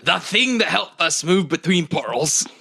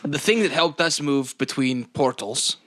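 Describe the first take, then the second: First: The character voice is fully put on. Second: The character voice is only partly put on. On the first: The speaker calls it right. "More committed" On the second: The speaker calls it wrong. "you're like doing a half voice"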